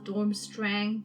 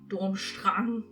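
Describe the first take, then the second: First: The name is pronounced the English way. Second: The name is pronounced the German way.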